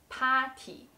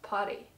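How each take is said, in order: First: It is said with a slight Chinese accent. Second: It is said with an English pronunciation. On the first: "with a little bit Chinese accent" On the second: "we will directly say the English word"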